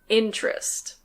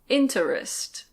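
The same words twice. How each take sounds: First: The middle vowel is dropped, t sounds like ch. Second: The middle vowel is fully pronounced. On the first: The speaker calls it right. "Normally we say" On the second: The speaker calls it wrong. "that sounds a bit strange"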